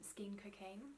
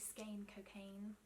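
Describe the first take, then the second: First: The first word does not rhyme with the second. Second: The first word rhymes with the second word. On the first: The speaker calls it wrong. "It doesn't sound as nice in an English accent because it doesn't rhyme" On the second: The speaker calls it right. "I think it should be Skein Cocaine"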